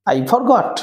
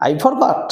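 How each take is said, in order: Both takes have the same delivery.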